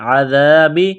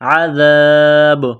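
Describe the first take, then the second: First: The final b is followed by a short i vowel. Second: The word ends on a stopped, bouncing b sound. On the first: "बा ज़ेर बी" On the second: "वक़फ़ करेंगे तो बा को साइलेंट करेंगे"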